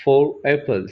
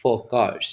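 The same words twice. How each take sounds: First: Four apples said slowly with the r linked on; slow careful demo of four apples with a linking r. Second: Four cars with no r sound after four; simple four cars, no r before the consonant; dropped r. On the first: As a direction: drag out four apples and join the r to the vowel. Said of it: "क्योंकि उसके बाद vowel एप्पल्स में आ". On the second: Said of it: "फिर simple". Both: Shown as a demonstration.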